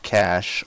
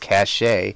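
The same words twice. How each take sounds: First: The word is said with one syllable. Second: The word is said with two syllables. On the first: The speaker calls it right. "properly prona- pronounced like the word cache" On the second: The speaker calls it wrong. "sometimes pronounced with two syllables as cache"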